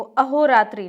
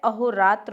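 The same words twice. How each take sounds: First: अहोरात्रि with final "i"; incorrect form. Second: अहोरात्र without final "i"; correct form. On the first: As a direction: say अहोरात्रि as "aho-raatri". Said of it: "नहीं, बिल्कुल गलत है". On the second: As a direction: say अहोरात्र as "aho-raatra". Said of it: "होता है". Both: Shown as a demonstration.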